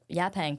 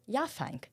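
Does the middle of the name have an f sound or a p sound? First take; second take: p; f. First: The middle is said with a p sound. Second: The middle is said with an f sound. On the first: The speaker calls it right. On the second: The speaker calls it wrong.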